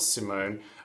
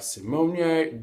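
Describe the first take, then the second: First: The name is said with two syllables. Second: The name is said with three syllables. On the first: The speaker calls it wrong. "not Simone" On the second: The speaker calls it right. "Simonier girl"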